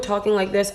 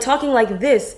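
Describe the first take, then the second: First: The voice is flat with little pitch range. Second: The voice is lively with wide pitch range. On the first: The speaker sounds insecure. The speaker calls it wrong. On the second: The speaker sounds more confident. The speaker calls it right.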